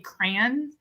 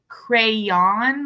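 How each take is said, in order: First: The word is said without a y sound. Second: The word is said with a y sound. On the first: "I don't pronounce the Y, I say crayon" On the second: "I don't say crayon"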